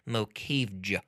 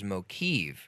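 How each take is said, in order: First: The name ends with an audible J sound. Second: The name ends without any J sound. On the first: "I'm mad that you have to pronounce the J" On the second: "how very clever to put a silent J at the end"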